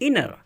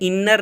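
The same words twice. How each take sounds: First: The middle consonant is single and short. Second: The middle consonant is doubled and held long. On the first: The speaker calls it right. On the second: The speaker calls it wrong.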